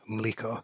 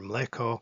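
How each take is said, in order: First: The vowel after ml is a plain i. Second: The vowel after ml is a plain e. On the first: The speaker is from the blue area. "unless you were in the blue part" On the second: The speaker is from the eastern area. "the vowel that is pronounced in the eastern part of this territory as e"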